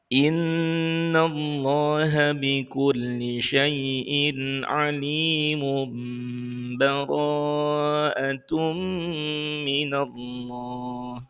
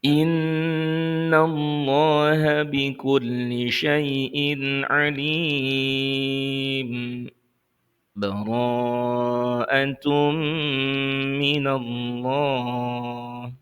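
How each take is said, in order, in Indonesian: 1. Kedua frasa itu disambung tanpa jeda sama sekali. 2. Berhenti sebentar di antara frasa tanpa mengambil napas. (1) "al-waslu atau disambung" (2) "saktah, yaitu berhenti sejenak tanpa bernapas"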